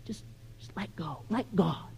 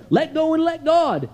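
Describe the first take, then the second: First: Very soft, airy near-whisper; hushed, lower, gently mocking; mock-nice platitude. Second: Higher-pitched, emphatic mock slogan; recited slogan, pitched up and pressed; mimicked pat advice. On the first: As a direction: murmur it like a soothing, too-easy slogan. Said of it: "That sounds nice, isn't it? Just nice". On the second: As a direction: parrot the advice people always give, punchily. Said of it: "That's what people tell me".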